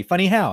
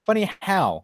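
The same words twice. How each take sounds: First: Loud, high, furious; angry shout. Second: A touch higher, puzzled; mock puzzled. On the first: Acted. Demanding the guy explain, shouting. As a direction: bark the question. Mock gangster rant. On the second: Quoting his own reply to the guy, mildly puzzled. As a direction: ask it half confused. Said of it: "And I'm like".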